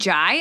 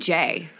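First: The name rhymes with 'eye'. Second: The name rhymes with 'day'. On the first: "You pronounce it Jai" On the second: "I say Jay"

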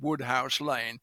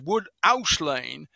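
First: The h in 'house' is clearly pronounced. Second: The h in 'house' is dropped. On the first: The speaker calls it wrong. "it wasn't Woodhouse Lane" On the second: The speaker calls it right. "in Leeds they don't say "huh" in cases like that"

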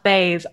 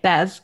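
First: The name rhymes with 'days'. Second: The name rhymes with 'fez'. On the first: "it's pronounced BAES" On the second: "I was calling it Bez"

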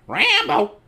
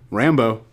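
First: It is said in a squawky parrot voice. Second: It is said in his normal voice.

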